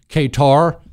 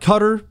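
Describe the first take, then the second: First: The word is pronounced the way it is spelled. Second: The word is pronounced differently from its spelling. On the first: "I pronounce Qatar, Qatar, Q-A-T-A-R. I know that that's incorrect" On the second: "I don't like Qatar. It doesn't sound like a good name for a country"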